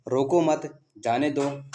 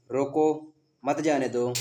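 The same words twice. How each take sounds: First: "रोको मत" together, a break, then "जाने दो"; group रोको with मत, pause before जाने; pause after मत. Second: Stretched "रोको", a break, then "मत जाने दो" together; pause after रोको. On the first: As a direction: read the comma after मत as a clear pause. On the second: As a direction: pause before मत and join it to जाने. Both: Shown as a demonstration. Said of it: "विराम चिन्ह की दृष्टि से".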